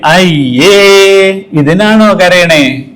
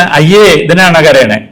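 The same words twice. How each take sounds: First: Drawn-out slow mocking ayye; mock-dismissive adult to crying child; dismissive scoff. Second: Slow belittling ayye again drawn out; slow mock dismissal; dismissive scoff. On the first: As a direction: belittle the tears, slowly. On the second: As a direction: scoff at the child's crying. Repeats dismissive adult line.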